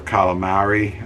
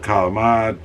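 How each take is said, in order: First: It is said with a general American pronunciation. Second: It is said with an Italian American pronunciation.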